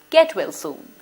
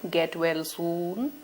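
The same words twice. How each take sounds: First: It is said in a cheerful tone. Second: It is said in a sad tone. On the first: The speaker calls it right. "in a cheerful tone" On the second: The speaker calls it wrong. "should I say it in a sad sort of a tone?"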